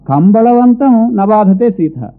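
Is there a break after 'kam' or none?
none. 'Kam' runs straight into 'balavantam'.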